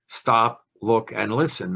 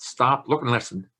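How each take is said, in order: First: The list items are said at a level pitch. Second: The list items are said with varying pitch.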